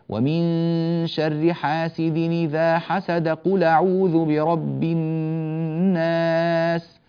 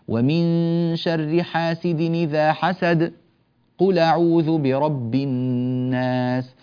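First: 'Hasad' runs straight into 'qul' without pause. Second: A brief breathless pause follows 'hasad'. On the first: The speaker calls it wrong. "هكذا بالوصل من غير بسملة" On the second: The speaker calls it right. "سكتة خفيفة ونتابع"

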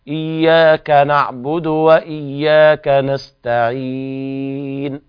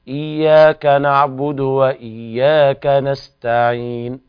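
First: The vowel before the final n is medium. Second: The vowel before the final n is short. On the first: "أو أربع" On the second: "نقف على النون بالسكون والياء قبلها حركتين"

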